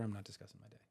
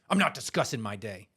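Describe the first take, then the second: First: The tone is calm, level and polite. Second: The tone is curt and confrontational. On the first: The speaker declines respectfully. The speaker calls it right. "Keep a nice level, even keel" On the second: The speaker is brushing the person off. The speaker calls it wrong. "you're not like"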